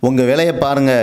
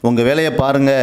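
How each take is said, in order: No difference in how they are said.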